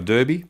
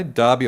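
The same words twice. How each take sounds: First: Derby said as "DUR-bee"; derby as spelt, "DUR-bee", as a question; "DUR-bee" pronunciation. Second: Derby said as "DAR-bee"; Derby rhyming with Barbie; "DAR-bee" pronunciation. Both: Shown as a demonstration. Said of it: "They say it differently in W A".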